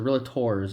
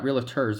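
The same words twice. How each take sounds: First: The final syllable is a full tor sound. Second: The final syllable is a reduced tur sound. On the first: The speaker calls it right. "they say tor" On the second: The speaker calls it wrong. "They're not realtors"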